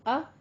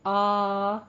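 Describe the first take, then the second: First: The vowel is held for one short beat. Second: The vowel is held for two beats. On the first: "फतह की मिकदार थी अ, ये एक हरकत थी" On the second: "कायमा दो बन गई"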